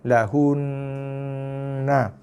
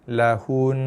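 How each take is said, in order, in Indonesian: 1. Kata ini berakhir dengan suku kata 'na' penuh. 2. Kata ini berakhir pada huruf n yang ditahan dan bersengau. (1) "dibaca dengan dengung dengan kadar dua harakat minima" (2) "bila waqaf lahun lahun macam tu"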